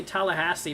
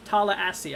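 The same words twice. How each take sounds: First: Tallahassee with a clear H before the last two syllables; pronounced with the H. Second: Tallahassee with the H dropped, "tah-luh-ASS-ee"; pronounced without the H. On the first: Streamer showing viewers the name he is avoiding, Tallahassee with its H sounded. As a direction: say Tallahassee with the H sounded, "tal-uh-HASS-ee". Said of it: "I'm trying to say Tallahassee". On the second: Streamer trying the local town's name, Tallahassee said with no H. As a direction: open the first vowel to "tah" and leave out the H in Tallahassee. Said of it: "I think it is".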